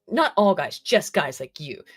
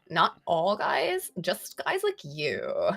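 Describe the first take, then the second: First: It is read in a fairly plain tone. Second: It is read in a condescending tone.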